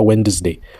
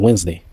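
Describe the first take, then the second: First: A d sound is heard in the middle. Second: No d sound is heard in the middle. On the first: The speaker calls it wrong. "on ne dit pas Wednesday" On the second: The speaker calls it right. "on dit Wednesday"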